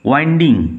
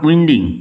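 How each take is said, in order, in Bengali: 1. প্রথম স্বরধ্বনিটি একটি লম্বা 'eye' ধ্বনি। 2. প্রথম স্বরধ্বনিটি একটি ছোট 'i' ধ্বনি। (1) "উচ্চারণ হবে ওয়াইন্ডিং" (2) "কথাটা উইন্ডিং হবে না, নট উইন্ডিং"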